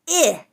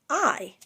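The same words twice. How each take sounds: First: The vowel is a short ih sound. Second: The vowel sounds like the word eye.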